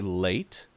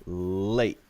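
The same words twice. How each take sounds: First: The final t is clearly released. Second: The final t is stopped, not released. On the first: "you could say late" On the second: "without saying the T at all and just stop it"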